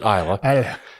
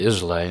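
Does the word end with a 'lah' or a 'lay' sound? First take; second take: lah; lay. First: The word ends with a 'lah' sound. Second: The word ends with a 'lay' sound. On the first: The speaker calls it right. "You pronounce it Isla" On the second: The speaker calls it wrong. "some people say Islay"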